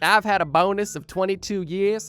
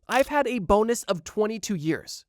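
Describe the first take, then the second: First: It is said in an Australian accent. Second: It is said in the speaker's normal accent.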